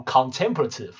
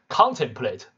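First: Contemplative with TEM stressed; stress on second syllable. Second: Contemplate with the first syllable stressed. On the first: Teacher showing how the adjective is read, second-syllable stress in contemplative. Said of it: "这要摆在第二音节". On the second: Teacher showing students how the verb is read, first-syllable stress in Contemplate. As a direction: hit CON in Contemplate, leave the rest lighter. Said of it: "当动词这样读". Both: Shown as a demonstration.

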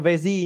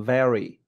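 First: "very" with a rolled z-like r, the student's error; mock student mistake; wrong "very". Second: "Very" with a clean English r and falling tune; plain correct English "very". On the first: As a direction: imitate the wrong "very". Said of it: "đừng phát âm". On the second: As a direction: model "very" right. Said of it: "nó là". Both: Shown as a demonstration.

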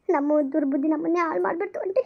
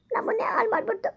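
First: Said in the usual way. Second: Higher, softer, sobbing through ಹಾಳು; crying. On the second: Acted. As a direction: break into tears on the repeat. Confessing to aunt, breaking down. (ಅಳುತ್ತಾ ಎತ್ತರದ ಮೆಲು ಧ್ವನಿಯಲ್ಲಿ)

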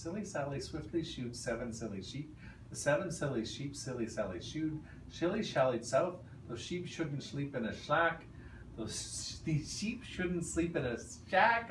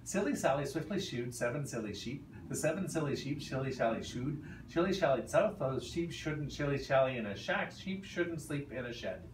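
First: Careful trial read-through; slow practice read. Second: The real timed attempt; timed real run. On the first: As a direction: feel out the words first. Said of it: "Let me actually read it out loud first". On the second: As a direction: push through at speed. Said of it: "tell me when you're ready for the real one". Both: Shown as a demonstration.

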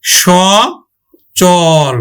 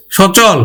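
First: সচল very slowly in two held syllables, shô... chôl; palatal sh pronunciation. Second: Said in the usual way. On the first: Shown as a demonstration. Teacher corrects the dental s for students, সচল drawn out as shô-chôl. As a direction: stretch সচল apart, opening with a sh sound. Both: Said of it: "উচ্চারণ তালব্য স হবে".

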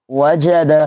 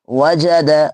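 Both takes have the same delivery.

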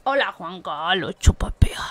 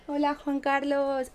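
First: Hushed joke whisper; whispered meme greeting. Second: Said in the usual way. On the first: Pretend. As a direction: whisper it like a secret punchline.

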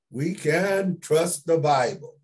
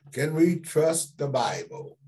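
First: "We can trust the Bible" slow and firmly stressed; emphatic affirmation. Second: "Can we trust the Bible" put as an open question; posing a question. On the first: Emphatic answer to his own question. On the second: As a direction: ask "Can we trust the Bible" for the room to consider. Rhetorical question he answers himself. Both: Shown as a demonstration.

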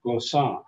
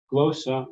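First: Glo-SSA, open final AH stressed in glossa; final-syllable stress. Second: GLO-ssa, first syllable stressed in glossa. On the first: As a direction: lean on the last syllable of glossa. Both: Shown as a demonstration. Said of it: "there's two ways to pronounce that".

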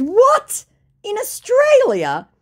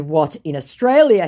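First: High, loud, drawn-out disbelief; incredulous. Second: Said in the usual way. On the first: Retold or imitated. Woman replying to a scammer's message, incredulous. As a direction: stretch it out in mock shock.

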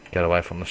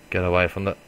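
Both takes have the same delivery.

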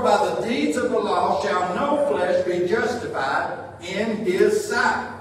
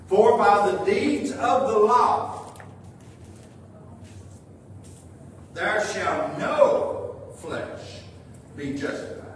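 First: Said in the usual way. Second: "no flesh" drawn out with long pauses; deliberate scripture reading, pausing before "there shall no flesh"; slow emphatic re-reading. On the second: Real, not acted. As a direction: spell out the verse slowly, phrase by phrase. Verse re-read for emphasis.

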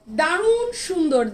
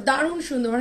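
First: Slow and stretched, a bit louder; drawn-out praise. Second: Said in the usual way. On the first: Real, not acted. Seller praising the dupatta to viewers, slow and emphatic. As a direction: savour the compliment. Seller admires dress on live.

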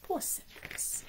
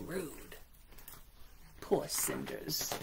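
First: High, slow pitying whisper. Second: Whispering. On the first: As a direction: sigh it out in pity. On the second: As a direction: breathe it with pity. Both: Real, not acted. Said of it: "aside in sympathy".

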